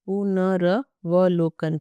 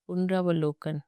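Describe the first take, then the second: First: "पुनर्वलोकन" drawn out syllable by syllable; very slow dictation. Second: Said in the usual way. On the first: Shown as a demonstration. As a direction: dictate "पुनर्वलोकन" slowly so they can write. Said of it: "यहाँ लिख दो". (धीरे-धीरे बोलकर "पुनर्वलोकन" लिखवाना) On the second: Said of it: "पुनरावलोकन है".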